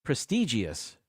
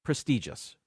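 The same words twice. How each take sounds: First: PRESTIGIOUS with extra ee, pres-TEE-jee-us; common mispronunciation. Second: PRESTIGIOUS as pres-TEE-jus; three syllables in PRESTIGIOUS, no extra ee; correct pronunciation. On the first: Host showing what people say, PRESTIGIOUS mispronounced pres-TEE-jee-us. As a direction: say PRESTIGIOUS as four syllables. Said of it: "People say". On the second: Host giving the correction, PRESTIGIOUS said pres-TEE-jus. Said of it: "it's actually pronounced". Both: Shown as a demonstration.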